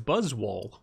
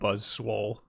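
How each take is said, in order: First: No extra s sound comes before 'wole'. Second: An extra s sound comes before 'wole'. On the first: The speaker calls it right. "but uh, it's Buzzwole" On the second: The speaker calls it wrong. "I call him Buzz Swole"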